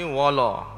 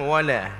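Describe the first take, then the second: First: The l is heavy and thick. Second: The l is light and thin. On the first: The speaker calls it wrong. "bila ditebal dia akan bunyi wala" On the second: The speaker calls it right. "nipiskan lam"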